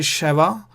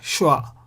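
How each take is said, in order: First: A short vowel separates the first two consonants. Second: The first two consonants run together without vowel. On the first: "You can say shava" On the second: "ignore eh there and say shwa"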